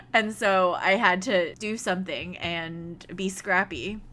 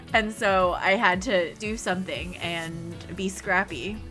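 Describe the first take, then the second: No difference in how they are said.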